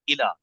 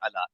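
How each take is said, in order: First: The word begins with an 'i' vowel. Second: The word begins with an 'a' vowel. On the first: The speaker calls it right. "इला कहना है" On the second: The speaker calls it wrong. "We tend to से अला, तेजी में अला"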